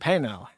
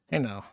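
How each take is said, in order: First: Said in the usual way. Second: Softer. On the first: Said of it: "repeated, second softer". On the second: Real, not acted. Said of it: "repeated softer".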